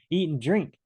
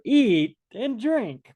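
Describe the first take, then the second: First: Said in the usual way. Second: High, slow coaxing host voice; pushy host. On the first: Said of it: "Whenever he says". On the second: Retold or imitated. Selfish ruler urging his guest to eat, high and slow. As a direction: draw it out high like a host pushing food. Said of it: "He says to you".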